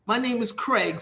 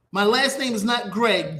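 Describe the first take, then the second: First: "Craig" opening on a K sound; correct surname. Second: "Greg" opening on a G sound; wrong surname shown. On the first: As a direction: set them straight with a C-initial "Craig". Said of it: "C R A I G". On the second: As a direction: show the wrong "Greg", starting with G. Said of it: "G R A I G". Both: Retold or imitated.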